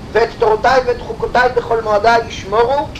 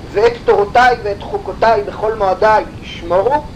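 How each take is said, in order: The two takes are said the same way.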